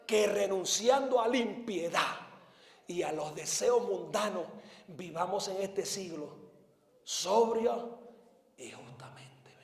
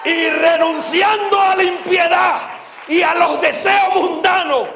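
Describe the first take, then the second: First: Versículo en voz baja. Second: Slow, high-pitched pulpit shout; prédica a gritos. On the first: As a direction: drop from the pulpit shout to hushed recitation. Repite el versículo ya sin gritar. (recitado suave que se apaga en susurro) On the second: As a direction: thunder the verse slowly at full voice. Cita la Biblia predicando a gritos. (versículo gritado desde el púlpito) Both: Real, not acted.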